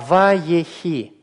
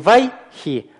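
First: The word is said in three syllables. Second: The word is said in two syllables. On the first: The speaker calls it right. "а ва-е-хи" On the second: The speaker calls it wrong. "это не вай-хи"

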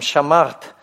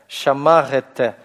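First: It ends in a bare consonant cluster without extra vowels. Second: Short murmured vowels follow the final consonants. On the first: This is how the word is said today. "Сейчас мы их не произносим" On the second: This may be how the word was said long ago. "вот этот призвук «рете»"

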